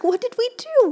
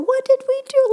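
First: Higher, louder indignant question; rhetorical outcry. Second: Much higher, louder indignant repeat; bigger outcry. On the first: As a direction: throw the question out in outrage. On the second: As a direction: push the outrage further. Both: Acted.

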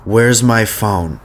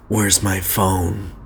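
First: Very slow, drawn-out "Where's my phone?" sounding irritated; annoyed. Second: Forced sexy voice. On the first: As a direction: drag it out like you're fed up. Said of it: "It was, like, annoyed". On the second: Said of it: "that was a bit forced". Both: Shown as a demonstration.

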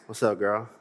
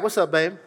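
First: Imitating a smooth late-night flirt; late-night smooth guy. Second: Lightly voiced casual daytime greeting; a hint of a guy texting at noon; mild imitation of a casual guy. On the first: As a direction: play the guy calling at two A M. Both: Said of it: "He wasn't talking like that at two P M".

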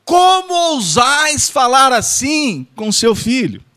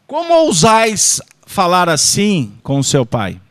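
First: Slow, higher, shouted hammed-up rebuke; theatrical shouted reproach for laughs; mock outraged shout. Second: Slow, louder theatrical reproach; hammed-up scolding for a live audience; mock lofty rebuke. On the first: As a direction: bellow like an offended stage monarch. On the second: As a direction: scold like a stage king, half in jest. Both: Mock archaic rebuke, repeated.

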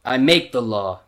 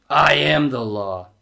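First: Said in the usual way. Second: Slow, toned-down lawman impression; Judge Dredd. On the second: Reader repeating the movie impression, slow stern lawman. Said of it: "do my quick Judge Dredd".

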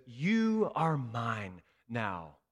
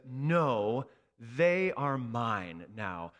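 First: Slow, steady and sure; tender claim. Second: Slow, steady protective voice; firm claim. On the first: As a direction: speak it like a promise. Jesus says to you. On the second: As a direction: shield them with your words. Jesus claims us from wrath. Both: Acted.

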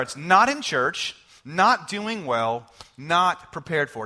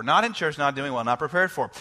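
First: Slow, each "not" leaned on hard; slow stressed list. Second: Said in the usual way. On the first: Shown as a demonstration. Pastor presenting three knots to congregation, "not" stressed slowly. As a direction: lay out "not in church", "not doing well", "not prepared for" slowly with "not" punched. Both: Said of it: "Here they are".

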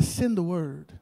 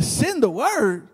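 First: Said in the usual way. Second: Slow, drawn-out disbelief; incredulous echo. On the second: Retold or imitated. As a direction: repeat SEND THE WORD slowly, as if you can't believe it. Friend echoes it in disbelief.

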